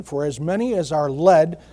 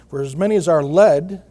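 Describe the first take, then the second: First: Said in the usual way. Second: Led said louder and leaned on; stress on led. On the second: Shown as a demonstration. Pastor reading Romans to the congregation, stressing led. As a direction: push the word led so it lands. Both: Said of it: "I'm emphasizing the word led".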